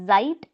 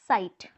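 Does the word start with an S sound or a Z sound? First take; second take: Z sound; S sound. First: The word begins with a Z sound. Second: The word begins with an S sound. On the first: The speaker calls it wrong. "this is not Zeit" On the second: The speaker calls it right. "Z has a sound of S"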